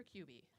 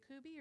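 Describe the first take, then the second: First: "Kuby" said as KYOO-bee; "Kuby" starting like the word "cube"; KYOO-bee pronunciation. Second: "Kuby" said as KOO-bee; "Kuby" rhyming with "ruby" minus any y-glide; KOO-bee pronunciation. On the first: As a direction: say "Kuby" with a y-glide after the K. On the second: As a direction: say "Kuby" with a plain oo, no y sound. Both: Real, not acted. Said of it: "is it Kuby or Kuby?".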